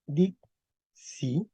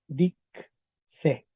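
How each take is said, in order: First: "dixi" en dos sílabas separadas, "dik-si", con i final. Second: "dixi" dicho "dik-se", en dos sílabas separadas; i final abierta en e. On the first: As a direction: pronuncia "dixi" pausado, acabado en i. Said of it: "P uno sería". ("dixi" como "dik... si") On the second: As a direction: pronuncia "dixi" pausado, acabado en e. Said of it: "Con P cuatro". ("dixi" como "dik... se", con e final) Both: Shown as a demonstration.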